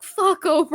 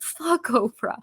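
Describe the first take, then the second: First: Much higher, louder playful mock quote; husband cheering her up while she cries, playfully; imitating husband's quip. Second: Joking back at her husband in a put-on voice. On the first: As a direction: toss it out to make her laugh. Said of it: "he's just like". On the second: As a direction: throw it out like the song line. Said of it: "and I was like".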